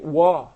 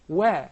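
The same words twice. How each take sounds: First: The vowel sounds heavy and darkened. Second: The vowel sounds light and thin. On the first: The speaker calls it wrong. "Please do not say wa" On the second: The speaker calls it right. "It is one of the tarqiq letters"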